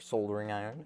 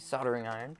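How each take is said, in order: First: It is said in a British pronunciation. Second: It is said in an American pronunciation.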